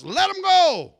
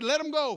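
First: Much higher, much louder yell; delivered man yelling at the departing demons. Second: Said in the usual way. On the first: Retold or imitated. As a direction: shout it out at the top of your voice. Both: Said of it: "that's what he yells out to us".

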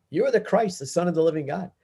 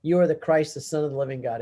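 First: Peter blurting out. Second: Said in the usual way. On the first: Acted. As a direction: blurt it out like a sudden realisation. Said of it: "Peter blurts out". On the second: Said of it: "what I like to say is".

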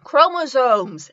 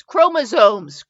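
First: "chromosomes" said slowly and carefully, trying to fix the Midwestern vowels; carefully and slowly sound out "chromosomes"; corrected pronunciation. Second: "Chromosomes" drawn out slowly in a Midwestern accent. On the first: Reviewer corrects her Midwestern "chromosomes", slow and careful. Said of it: "my Midwestern accent, but". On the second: Reviewer shows her Midwestern accent on a word, slowly. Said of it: "I say chromosomes because my Midwestern accent". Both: Shown as a demonstration.

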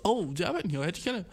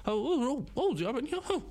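First: Said in the usual way. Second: Mock surprise. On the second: Mocking his own surprised question at the gym desk, much higher. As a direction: ham up your own dumb amazement. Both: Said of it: "Ich hab eine ernste Frage gestellt, so".

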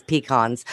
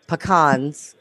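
First: "pecans" said PEE-kahnz; "pecans" as PEE-kahnz, the non-Louisiana way; rejected pronunciation. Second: "pecans" said puh-KAHNZ; Louisiana-style "pecans", puh-KAHNZ; Louisiana pronunciation. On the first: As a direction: say "pecans" with a long "pee" at the front. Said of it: "there's no such thing as". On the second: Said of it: "'cause I'm from Louisiana". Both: Shown as a demonstration.

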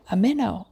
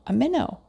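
First: Eager cry at the first bite, a touch louder; excited cry. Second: Same cry pushed much higher, rising at the end; higher excited cry. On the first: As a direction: call out the catch with delight. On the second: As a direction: squeal it out, thrilled. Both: Acted. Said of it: "cried Mister Jeremy Fisher".

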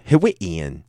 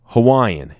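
First: Hawaiian said hih-WEE-un; Hawaiian, middle syllable rhyming with "we"; alternative Hawaiian pronunciation. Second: Hawaiian said how-WHY-un; Hawaiian, middle syllable rhyming with "why"; standard Hawaiian pronunciation. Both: Shown as a demonstration. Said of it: "I think I would go with Hawaiian".

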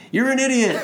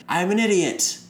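First: Much higher, louder echo of You're an idiot; abyss yelling back. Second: High shout of I'm an idiot, falling; yelling into the abyss. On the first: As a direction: boom it back like a mocking echo. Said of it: "the abyss yells back". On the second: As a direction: yell it out into the void. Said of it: "he just yells into the abyss". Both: Retold or imitated.

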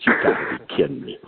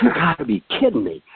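First: Low, fast, muttered in disbelief; stunned disbelief. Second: Higher, exclaimed in disbelief; excited disbelief. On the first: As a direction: say it low under your breath, floored. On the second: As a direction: blurt it out high, amazed. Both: Retold or imitated. Stunned by the same fish.

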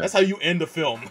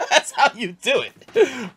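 First: Said in the usual way. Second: Slow laughing delight. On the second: Real, not acted. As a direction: laugh it out slowly. Repeats line, laughing.

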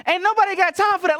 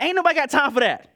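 First: Much higher, louder, sassy meme voice; high viral-video impression. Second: Quick, sassy quote of the famous clip; mock viral-video quote. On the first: Pastor impersonating the viral video clip, high and sassy. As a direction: belt it like the woman in the clip. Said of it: "Some of y'all know that video". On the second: Quoting the meme about sin, quick and sassy. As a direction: fire it off like the meme. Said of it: "I'm like".

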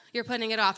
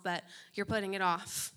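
First: Loud insistent repeat. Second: Said in the usual way. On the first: Real, not acted.

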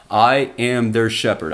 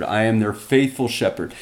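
First: Said in the usual way. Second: Faithful leaned on, then falling; stress on faithful. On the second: Shown as a demonstration. Preacher emphasizing to congregation, faithful stressed. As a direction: hit the word faithful. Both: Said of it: "this is what I'm trying to emphasize".

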